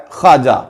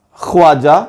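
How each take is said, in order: First: خواجہ with a silent و, khaja; correct pronunciation. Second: خواجہ with the و sounded, khwaja; خواجہ mispronounced as khwaja; wrong pronunciation. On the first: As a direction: say خواجہ right, skipping the waw. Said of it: "درست تلفظ ہے". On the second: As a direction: say خواجہ the wrong way, voicing the waw. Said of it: "یہ تلفظ غلط ہے". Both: Shown as a demonstration.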